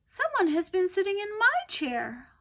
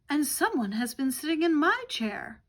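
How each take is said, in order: First: It is said in a tiny little voice. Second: It is said in a medium-sized voice.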